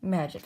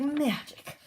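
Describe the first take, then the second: First: Said in the usual way. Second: High, swooping character voice; showy magical exclamation. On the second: Acted. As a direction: swoop up high with mock wonder. Character's acted exclamation, repeated higher.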